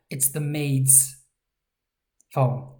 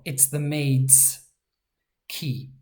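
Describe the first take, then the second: First: "maid's" slowed, its dz drawn out; slow down to show the dz in "maid's". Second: "maids" slowed and stressed on its dz; dz in maid's. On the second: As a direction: lean on the dz of "maids". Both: Shown as a demonstration. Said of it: "That's the z sound".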